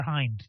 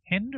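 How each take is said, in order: First: Hind with a long i, like "hined"; long-i pronunciation. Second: Hind with a short i, like "hinned"; short-i pronunciation. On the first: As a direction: say Hind to rhyme with "kind". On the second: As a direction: say Hind to rhyme with "pinned". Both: Shown as a demonstration. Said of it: "Long eye or short eye".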